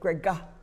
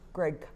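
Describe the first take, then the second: First: An extra vowel is added after the final g. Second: The name ends cleanly on the final g. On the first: The speaker calls it wrong. "they wanted to put the ga at the end" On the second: The speaker calls it right. "they heard Greg"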